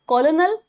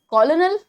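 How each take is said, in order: The two takes are said the same way.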